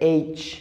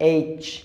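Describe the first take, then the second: No difference in how they are said.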